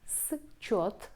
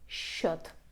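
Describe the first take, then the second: First: The s and ch are sounded separately. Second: The s and ch merge into sh. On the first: "We write счет" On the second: "but pronounce счет"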